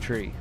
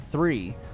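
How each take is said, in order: First: It begins with a hard 't' sound. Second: It begins with a soft 'th' sound. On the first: The speaker calls it wrong. "a lot of people say tree in Ireland" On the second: The speaker calls it right. "if you say three"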